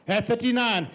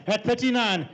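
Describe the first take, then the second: No difference in how they are said.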